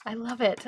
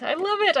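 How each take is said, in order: First: Said in the usual way. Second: High, delighted gush. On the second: Real, not acted. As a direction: squeal with delight. Admiring finished card.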